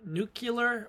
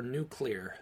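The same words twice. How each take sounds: First: "nuclear" drawn out as NOO-kuh-ler; nucular pronunciation. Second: "nuclear" slowly as NOO-klee-er; standard pronunciation. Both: Shown as a demonstration. Asks which pronunciation, giving both.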